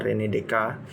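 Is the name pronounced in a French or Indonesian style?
French. The name is said with French pronunciation. This is how a native French speaker would say it. "karena nama Prancis ya, ... kurang lebih seperti itu yang diucapkan oleh salah seorang dosen kami"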